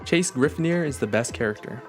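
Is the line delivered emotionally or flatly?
emotionally. The line is said with more emotion.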